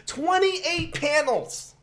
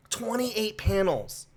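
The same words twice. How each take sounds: First: Very high, drawn-out squeal of disbelief; incredulous high-pitched wail at normal volume; appalled disbelief. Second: Slower, moderately high stunned restatement; stunned disbelief. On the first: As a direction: stretch it out slowly, voice shooting way up. Appalled at the final panel count. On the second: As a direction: let it sink in slowly, pitch a little raised. Repeats the appalling count after pause. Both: Real, not acted.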